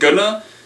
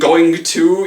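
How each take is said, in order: First: The words blend into one reduced word. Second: Both words are said fully and clearly. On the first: The speech is quick and lazy. "when you're talking quickly, you're being kind of lazy with your speech" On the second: The speech is careful. "Instead of saying going to"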